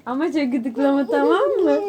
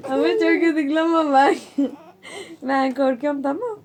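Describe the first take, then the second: First: Said in the usual way. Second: Laughing, half-crying while tickled; being tickled. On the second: Real, not acted. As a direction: squeal through tickle laughter. Aunt being tickled by child.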